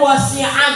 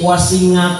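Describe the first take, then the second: First: The middle consonant is a throat sound. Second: The middle consonant is an 'ng' sound. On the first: The speaker calls it right. "dari wasi'ah" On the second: The speaker calls it wrong. "ain dibaca ngain"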